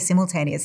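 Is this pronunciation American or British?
British. It is pronounced the British way. "I've spent some time in London and I say simultaneous"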